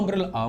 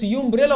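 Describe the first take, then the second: First: The word starts with an 'uh' vowel sound. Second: The word starts with a 'yoo' sound. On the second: "قلت يو امبريلا ولا امبريلا؟"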